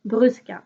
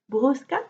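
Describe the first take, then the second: First: Brusca with a French "u", as in "tu", falling at the end; French pronunciation. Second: Brusca with an "oo" vowel, rising at the end; Portuguese pronunciation. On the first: French knitter giving up on Portuguese, French pronunciation of Brusca. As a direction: say Brusca the French way, "brüs-ka", decided. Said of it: "I'm just going to say it in French". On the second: Knitter trying out a Portuguese brand name, Portuguese pronunciation of Brusca. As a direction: try Brusca the Portuguese way, "broos-ka", questioning lift. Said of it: "It's Portuguese".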